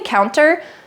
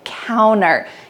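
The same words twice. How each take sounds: First: The T sound is clearly pronounced after the N. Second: The T sound is dropped after the N. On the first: "You can say counter" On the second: "the T in this word is cut out in American English"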